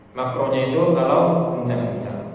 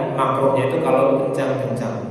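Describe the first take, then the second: The two takes are said the same way.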